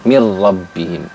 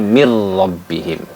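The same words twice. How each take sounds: Both takes have the same delivery.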